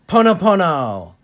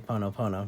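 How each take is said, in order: First: The word is said warmly, with strong energy. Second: The word is said flatly, with little energy. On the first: The speaker calls it right. "you got to put some heart into it" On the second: The speaker calls it wrong. "You can't just say Ponopono"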